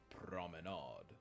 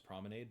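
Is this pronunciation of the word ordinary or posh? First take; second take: posh; ordinary. First: It is said in an exaggerated posh way. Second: It is said in a plain, ordinary English way. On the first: "posh assholes would be like promenade" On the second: "the normal bitch English is promenade"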